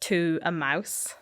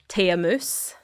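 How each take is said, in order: First: It is said with standard English vowel sounds. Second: It is said with Scots vowel sounds. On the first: "which is to a mouse" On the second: "tay like instead of two"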